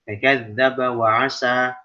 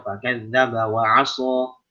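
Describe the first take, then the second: First: The s sound in the last word is light. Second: The s sound in the last word is heavy. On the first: The meaning changes to 'so that'. The speaker calls it wrong. "kalau kita nggak tebalin huruf shadnya, maka kita jadi sin nanti" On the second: It means he disobeyed. The speaker calls it right. "Kalau aso itu durhaka"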